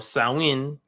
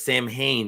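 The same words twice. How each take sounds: First: It is said the Gaelic way. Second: It is said the common English way. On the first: The speaker calls it right. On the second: The speaker calls it wrong.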